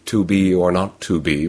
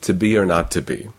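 First: The word 'to' is stressed with a full 'oo' vowel. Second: The word 'to' is unstressed with a weak 'uh' vowel. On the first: "but then they're stressing the word, yes? So it's not into, it's goose" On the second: "there are some accents in which it is simply to be or not to be"

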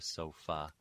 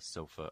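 First: The final vowel is lengthened and slightly stressed. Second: The final vowel is short and reduced to schwa. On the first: The speaker calls it wrong. "lengthen that final syllable and elevate its stress slightly" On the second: The speaker calls it right. "You're going to hear more of a sofa, a schwa"

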